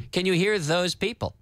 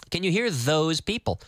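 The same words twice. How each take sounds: The two takes are said the same way.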